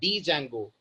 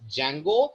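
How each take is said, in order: First: The word begins with a pronounced D sound. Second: The word begins with a silent D. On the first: The speaker calls it wrong. "It's not pronounced as डी जैंगो" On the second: The speaker calls it right. "It's pronounced as जैंगो, जिसमें डी alphabet silent है"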